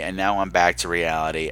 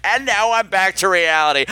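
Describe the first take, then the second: First: Low and earnest, waxing poetic; sincere. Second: Laughing, deflated irony; wry. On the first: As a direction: say it softly, deeply moved. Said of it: "I was trying to make a huge point". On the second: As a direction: undercut the moment with a wry laugh. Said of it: "the cat just let out the stinkiest turd". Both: Real, not acted.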